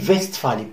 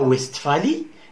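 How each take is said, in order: First: The name is pronounced with local German sounds. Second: The name is pronounced with French sounds. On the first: The speaker calls it right. "on dit Westphalie ... avec la prononciation locale" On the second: The speaker calls it wrong. "On ne dit pas la Westphalie"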